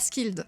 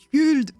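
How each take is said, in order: First: The name is said with a French pronunciation. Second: The name is said with a Swedish pronunciation. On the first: "je vais le prononcer à la française" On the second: "elle me lâche en message vocal un Skuld"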